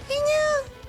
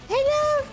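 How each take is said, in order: First: The voice is pitched high and shrill. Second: The same.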